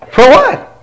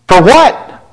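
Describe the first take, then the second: First: High disbelieving rise on what; incredulous question. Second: Said in the usual way. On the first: Shown as a demonstration. Pastor repeating to the church that he had nothing to apologize for, incredulous. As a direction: push it up, genuinely baffled.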